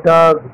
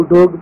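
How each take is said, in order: First: डॉग said with an open "aa" vowel, like "daag"; correct pronunciation. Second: डॉग said with a long O, like "dohg"; wrong pronunciation. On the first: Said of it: "इसका pronunciation है". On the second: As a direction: round the vowel of डॉग into "oh". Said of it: "वो सही नहीं है". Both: Shown as a demonstration.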